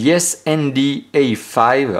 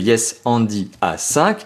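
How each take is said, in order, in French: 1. Le nom est prononcé avec un accent anglais. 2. Le nom est prononcé avec un accent français. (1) "avec mon très bon accent anglais" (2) "un tout petit peu plus humble en français"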